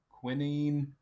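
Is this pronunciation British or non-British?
British. It is pronounced the British way. "The British is uh"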